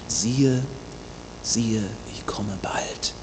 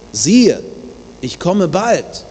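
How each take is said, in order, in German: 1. Der Satz wird geflüstert. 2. Der Satz wird laut geschrien. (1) "mit großer Dringlichkeit flüstert er in die Gemeinde hinein" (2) "diesmal ruft er mit lauter Stimme"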